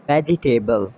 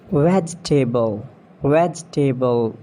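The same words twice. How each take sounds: First: "Vegetable" as VEJ-i-TAY-bul; four syllables in "Vegetable"; mispronounced vegetable. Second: "Vegetable" as VEJ-tuh-bul; three syllables in "Vegetable"; British pronunciation. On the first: Acted. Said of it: "you have to correct me". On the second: Shown as a demonstration. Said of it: "Not vegetable".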